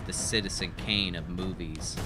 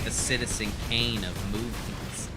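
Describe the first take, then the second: First: It is said without laughing. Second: It is said while laughing. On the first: The speaker calls it right. "I'll try it again" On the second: The speaker calls it wrong. "I couldn't say it without laughing"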